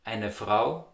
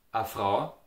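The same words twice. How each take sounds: First: "eine Frau" with both syllables of eine; standard German. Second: "a Frau" with bare ah for eine; Austrian dialect. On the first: Teacher giving the standard form, full "eine Frau". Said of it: "So in the Standard German". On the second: Teacher modelling dialect, "a Frau". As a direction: open "a" before "Frau". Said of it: "In the Austrian dialect". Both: Shown as a demonstration.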